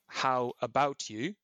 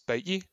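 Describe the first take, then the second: First: All three words are said fully and clearly. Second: The phrase is clipped to two short syllables. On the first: "What I'm actually saying how about you" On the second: "but I'm saying it how we say it, which is bout ye"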